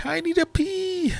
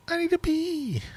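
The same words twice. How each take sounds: First: Much higher, silly squeak; squeaky high voice. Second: Much higher, cartoonish squeak; squeaky high voice. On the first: Pretend. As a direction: squeak it like a cartoon. Joking about needing a pee. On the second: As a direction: squeak it out like a toon. Repeating the pee joke.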